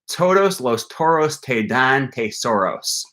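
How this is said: The consonants are said the English way. The speaker calls it wrong.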